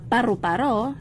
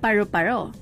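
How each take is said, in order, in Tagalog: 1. Sinabi ito sa simpleng Filipino accent. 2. Sinabi ito sa English-like na accent. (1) "ang tunog na paru-paro sa Pilipino" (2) "kapag sa konyo ay nagiging paru-paro"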